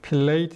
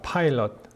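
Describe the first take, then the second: First: Two syllables, ending in a 'late' sound. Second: Two syllables, sounding like 'pilot'. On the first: "필레이트 이렇게 해야 됩니까?" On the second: "빌라도의 발음은요. 파일럿입니다"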